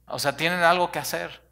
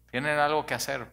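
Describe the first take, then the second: First: Excited emphasis. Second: Said in the usual way. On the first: Shown as a demonstration.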